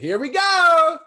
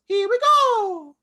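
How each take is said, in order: First: It is said in his normal voice. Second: It is said in a Mario impression voice.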